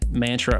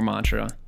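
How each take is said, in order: First: The first syllable is said like 'man'. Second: The first syllable is said like 'mon'. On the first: "It can be man or mon" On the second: "It can be man or mon"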